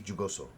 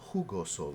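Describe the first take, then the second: First: It begins with an English j sound. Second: It begins with an h sound, like who. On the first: "As an American, I see jugoso" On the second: "like W H O, who?"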